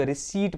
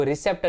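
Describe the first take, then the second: First: "रिसीट" said re-seet, no p; silent p. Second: "रिसेप्ट" said re-sept, p sounded; wrong pronunciation. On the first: Teacher gives students the right reading, silent p. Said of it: "रिसीट पढ़ना है". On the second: Teacher shows students the wrong reading, sounded p. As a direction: pronounce the p in "रिसेप्ट". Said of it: "रिसेप्ट नहीं पढ़ना है". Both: Shown as a demonstration.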